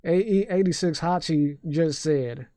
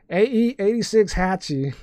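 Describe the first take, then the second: First: Slow Southern drawl; unhurried Southern-accented announcement. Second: High-pitched, botched Southern accent; overdone first stab at a Southern accent. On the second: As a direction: try a Southern twang, pitched up. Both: Shown as a demonstration. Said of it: "read that in a Southern accent".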